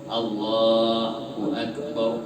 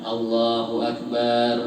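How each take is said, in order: First: The vowel in 'bar' is kept short. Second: The vowel in 'bar' is drawn out long. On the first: The speaker calls it right. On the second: The speaker calls it wrong.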